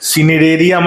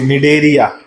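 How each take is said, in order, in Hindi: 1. यह शब्द एस की ध्वनि से शुरू होता है। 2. यह शब्द एन की ध्वनि से शुरू होता है। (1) "सी साइलेंट बेटा, सिनिडेरिया मत बोल देना" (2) "सी साइलेंट है"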